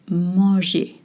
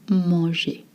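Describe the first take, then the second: Both takes have the same delivery.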